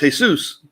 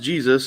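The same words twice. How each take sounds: First: The name is said with Spanish pronunciation. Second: The name is said with English pronunciation. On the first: "in Spanish, it's pronounced Jesus" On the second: "In English, it's, it's pronounced Jesus"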